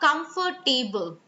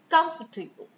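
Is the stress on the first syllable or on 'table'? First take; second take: table; first syllable. First: The stress falls on the 'table' part. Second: The stress falls on the first syllable. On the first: The speaker calls it wrong. "don't make it about table" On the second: The speaker calls it right. "the stress is on com"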